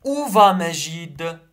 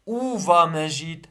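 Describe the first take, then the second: First: Où va Majid read slowly, louder, rising on va; slow dictation voice. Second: Said in the usual way. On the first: Shown as a demonstration. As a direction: dictate the question.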